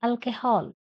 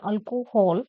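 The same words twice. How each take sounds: First: "alcohol" as al-keh-hol; correct pronunciation. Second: "alcohol" as al-ko-hol; mistaken pronunciation. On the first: Teacher corrects the word for students, "alcohol" as al-keh-hol. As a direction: weaken the middle of "alcohol" to keh. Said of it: "It is alcohol". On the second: Teacher shows students what to avoid, "alcohol" with full ko. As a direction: round the middle o in "alcohol". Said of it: "It's not alcohol". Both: Shown as a demonstration.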